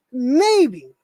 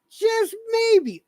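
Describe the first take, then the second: First: Said in the usual way. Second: Just maybe jumps much higher; emphatic just maybe. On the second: Real, not acted. To the other streamer, a pointed, much higher just maybe.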